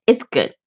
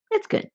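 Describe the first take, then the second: First: Said in the usual way. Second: High, soft little squeak; much higher, softer playful echo; squeaky repeat. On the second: Pretend. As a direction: echo yourself in a tiny playful voice.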